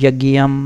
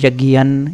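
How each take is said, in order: First: The word ends with an m sound. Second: The word ends with an n sound. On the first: The words are separated from each other. "जब हम विच्छेद करते हैं तो इस तरह से" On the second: The words are joined in continuous recitation. "यज्ञन इस माँ की जगह ना बोलते हैं"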